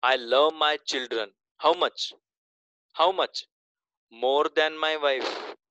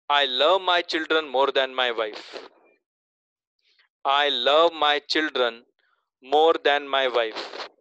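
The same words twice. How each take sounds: First: "How much?" asked as a pointed question before "More than my wife"; stress on how much. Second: Slow reading. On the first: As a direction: break the sentence with "How much?" to show the second meaning. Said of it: "दूसरा meaning देखो क्या निकलता है". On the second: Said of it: "तीसरा sentence बोलता हूं". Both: Shown as a demonstration.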